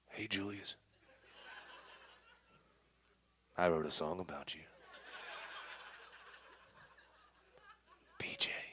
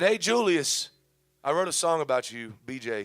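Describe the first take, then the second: First: It is read in a creepy voice. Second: It is read in a normal, plain voice.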